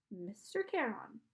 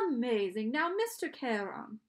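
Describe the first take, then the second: First: Slow, subdued echo; pupil's echo. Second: Patronizing teacher. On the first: Boy repeats the title to Charon, subdued echo. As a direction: repeat it back slowly and dutifully. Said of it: "Say it with me". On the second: Charon prompts the boy to say his title, patronizing teacher. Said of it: "He had a strange accent". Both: A narrator's reading.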